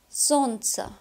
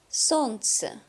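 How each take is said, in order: The two takes are said the same way.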